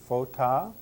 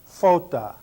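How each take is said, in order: First: The stress falls on the last syllable. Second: The stress falls on the first syllable. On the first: The speaker calls it wrong. "I'm trying to emphasize the ending" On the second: The speaker calls it right. "I would put the accent where it belongs"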